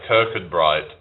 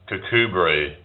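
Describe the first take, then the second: First: Every written letter is sounded out in full. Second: Several written letters are dropped, shortening the name. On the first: This is how the spelling makes it look. "but it looks like" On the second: This is how the place is actually called. "there's a place in Scotland called"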